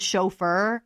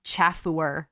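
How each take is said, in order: First: Said in the usual way. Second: "chaffuer" with a hard ch as in chat; mispronounced chauffeur. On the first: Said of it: "I've always thought that word was pronounced". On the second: Shown as a demonstration. Vlogger recalling a childhood misreading, "chaffuer" mispronounced. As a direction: say "chaffuer" as spelt, sounding out every syllable. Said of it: "thought that word was pronounced chaffuer".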